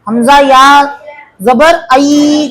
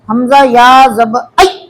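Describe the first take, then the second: First: The final sound is stretched out long. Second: The final sound is cut off abruptly. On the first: "कई को खींचे इसमें।" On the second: "कई को झटका दिए, नरम आवाज से नहीं पढ़े"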